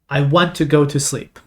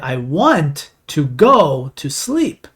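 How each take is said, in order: First: It is said at a normal conversational speed. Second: It is said slowly, with the pitch rising.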